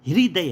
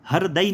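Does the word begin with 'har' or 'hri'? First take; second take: hri; har. First: The word begins with a 'hri' sound. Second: The word begins with a 'har' sound. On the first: The speaker calls it right. "हृदय है" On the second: The speaker calls it wrong. "ये हरदय नहीं है"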